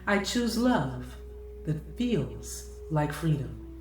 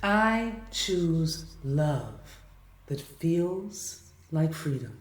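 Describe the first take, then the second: First: It is said at a faster pace. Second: It is said at a slower pace.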